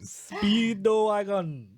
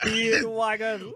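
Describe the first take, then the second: First: It is said in an imitated Japanese accent. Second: It is said in the speaker's ordinary accent.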